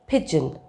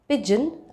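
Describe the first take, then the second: First: The p is released with a puff of air. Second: The p is released without a puff of air. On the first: "I would say pigeon" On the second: "Instead of saying pigeon"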